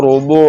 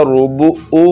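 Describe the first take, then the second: First: روبو ending in a throaty عین from the middle of the throat; correct ain sound. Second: روبو او with a plain glottal او instead of the throaty عین; wrong ain as hamza. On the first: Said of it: "عین کی آواز نکالنی ہے". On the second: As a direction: end روبو او on a bare hamza stop, the wrong way. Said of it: "ابھی عین نہیں پڑھا جا رہا". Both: Shown as a demonstration.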